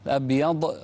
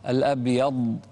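First: The final consonant ends with a bouncing echo. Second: The final consonant ends without a bouncing echo. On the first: The speaker calls it wrong. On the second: The speaker calls it right.

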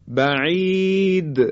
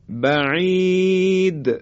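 The two takes are said the same way.

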